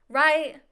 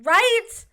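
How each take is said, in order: First: Said in the usual way. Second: Loud, high rising question to viewers; loud right. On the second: Real, not acted. Vlogger pressing viewers, loud rising right. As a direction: demand agreement from viewers, loud.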